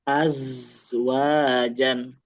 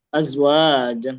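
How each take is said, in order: First: The z sound is drawn out longer. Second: The z sound is rushed and short. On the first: The speaker calls it right. "tapi az, az" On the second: The speaker calls it wrong. "jangan cepat-cepat"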